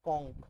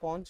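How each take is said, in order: First: The word ends with a k sound. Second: The word ends with a ch sound. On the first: "এটাকে দুটো উচ্চারণ করা যায়" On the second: "এটাকে দুটো উচ্চারণ করা যায়"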